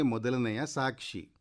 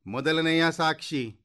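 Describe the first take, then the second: First: Said in the usual way. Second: High-pitched court crier's call. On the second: A narrator's reading. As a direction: summon the witness in a raised, high voice. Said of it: "ಎಂದು ಕೂಗಿತು".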